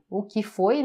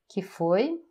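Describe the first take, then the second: First: The opening 'o' is pronounced in full. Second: The opening 'o' is dropped entirely.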